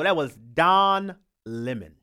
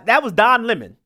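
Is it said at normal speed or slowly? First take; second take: slowly; normal speed. First: It is said very slowly. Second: It is said at normal speed.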